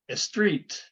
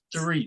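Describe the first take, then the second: First: It begins with an added vowel before s. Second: It begins directly with a held s sound. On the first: The speaker calls it wrong. "your students are saying" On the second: The speaker calls it right. "make the S sound first and hold it"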